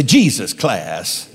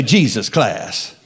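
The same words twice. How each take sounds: First: Slow, drawn-out "Jesus class" with a head shake; slow, knowing "Jesus class"; head-shaking emphasis. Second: Said in the usual way. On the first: Shown as a demonstration. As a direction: savour "Jesus class" like it's top quality. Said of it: "kinda shake your head". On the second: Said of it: "Let me hear y'all say".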